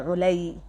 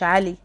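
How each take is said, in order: First: The first vowel is 'u', ending in a doubled 'y'. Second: The first vowel is 'a', as in plain 'Ali'. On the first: The speaker calls it right. "حتى العين عليها ضمة واو، لام عليها كسرة، الشدة" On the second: The speaker calls it wrong. "مش علي"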